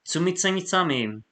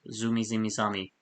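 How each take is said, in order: First: The z sounds are pronounced strongly. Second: The z sounds are pronounced softly. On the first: The speaker calls it wrong. "I think I probably pronounced the Z way too much there" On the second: The speaker calls it right. "That sounds better"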